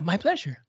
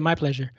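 First: It sounds warm and genuine. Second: It sounds flat and insincere. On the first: The speaker truly means it. The speaker calls it right. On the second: The speaker does not really mean it. The speaker calls it wrong. "Particularly if it sounds genuine. As opposed to"

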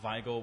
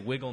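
First: The first vowel is long, as in 'eye'. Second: The first vowel is short, as in 'it'. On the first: This is how the name was said originally. "which is what you would have said" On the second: This is how the name is said today. "We say Wiggle now"

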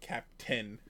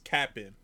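First: The word is said fully, as cap-tain. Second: The word is clipped short, as cap-n. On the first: The speaker calls it wrong. "Not Captain" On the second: The speaker calls it right. "It's Cap'n"

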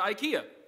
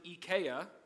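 First: IKEA is pronounced the usual American way. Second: IKEA is pronounced the way locals say it overseas. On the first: "what every good American does" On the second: "over there, they pronounce it IKEA"

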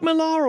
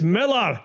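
First: The name is pronounced the American way. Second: The name is pronounced the Scottish way. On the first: The speaker calls it wrong. "Why do people say Mark Millar all of a sudden? ... Americans do" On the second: The speaker calls it right. "He's Scottish, it's Millar"

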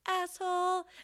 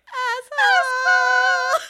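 First: It is said at a middle pitch. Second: It is said at a high pitch.

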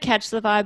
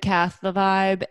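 First: The first word ends in a 'ch' sound. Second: The first word ends in a 'th' sound. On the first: The speaker calls it wrong. "we don't say catch the vibe" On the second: The speaker calls it right. "We say cath the vibe"

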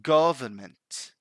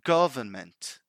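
First: The stress falls on the first syllable. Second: The same.

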